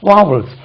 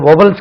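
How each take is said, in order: First: The first vowel sounds like 'vaa'. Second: The first vowel sounds like 'vo'. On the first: The speaker calls it right. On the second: The speaker calls it wrong. "அது வொவல்ஸ் கிடையாது"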